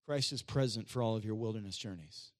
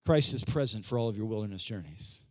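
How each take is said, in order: First: Low, soft statement to the church; low-pitched quiet reassurance; hushed key line. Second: CHRIST hit harder, then falling low; emphatic repeat. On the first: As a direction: say it low and softly, letting the end fall. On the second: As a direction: punch the word Christ at a low pitch. Repeats it after church misses it. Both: Real, not acted.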